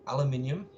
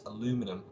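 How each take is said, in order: First: It is said the non-American way. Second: It is said the American way.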